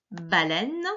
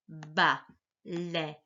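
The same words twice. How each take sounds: First: Said in the usual way. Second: "baleine" slow, broken into ba, lei, ne; syllable-by-syllable reading. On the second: Shown as a demonstration. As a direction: sound out "baleine" with gaps, final ne voiced. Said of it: "lisons d'abord les mots".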